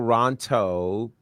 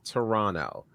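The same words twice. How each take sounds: First: The second T is clearly pronounced. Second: The second T is dropped. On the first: The speaker is not from the city. The speaker calls it wrong. "emphasis on the T, is uh, a sign that I'm not from Toronto" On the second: The speaker sounds like a local. The speaker calls it right. "without emphasis on the T"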